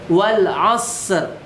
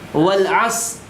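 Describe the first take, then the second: First: A light final r sound is heard. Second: The final r sound is dropped. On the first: The speaker calls it right. "Ada er" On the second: The speaker calls it wrong. "Ro-nya tidak di, ... diperjelas"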